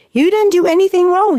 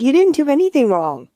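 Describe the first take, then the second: First: Higher and a bit louder, stress on "didn't"; insistent repeat. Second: Said in the usual way. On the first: Retold or imitated. Insisting to the crying mother she did nothing wrong, "didn't" stressed high. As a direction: press "didn't" hard the second time.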